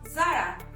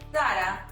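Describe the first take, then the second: First: The name begins without a 'th' sound. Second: The name begins with a 'th' sound. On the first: This is how people outside Spain say it. The speaker calls it wrong. "instead of Zara" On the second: This is how it is said in Spain. The speaker calls it right. "In Spain, the letter Z is pronounced as Zeta. That's why we say Zara"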